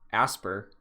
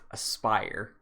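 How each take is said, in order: First: The name does not sound like 'aspire'. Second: The name sounds like the word 'aspire'. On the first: The speaker calls it wrong. "that is not how you pronounce that company" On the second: The speaker calls it right. "A S P Y R is pronounced Aspire"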